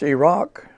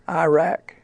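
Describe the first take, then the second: First: It is said the local Middle Eastern way. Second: It is said the common Americanized way. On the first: The speaker calls it right. "it's Iraq" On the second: The speaker calls it wrong. "not Iraq"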